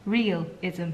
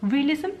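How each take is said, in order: First: Realism. said low and softer as a statement; settled realism. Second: Realism? tried out as a question, rising higher; testing the word Realism aloud with a higher rise. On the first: Musing to viewers about needing realism, settled low. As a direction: land Realism. low and quiet, all four syllables. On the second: Musing to viewers about needing realism, rising question. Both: Shown as a demonstration. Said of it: "a bit of realism".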